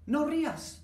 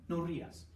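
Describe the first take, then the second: First: High, loud mock order; mock scolding. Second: Said in the usual way. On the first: Teacher to laughing student, loud mock command. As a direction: bark the command at a giggling student, hammed-up.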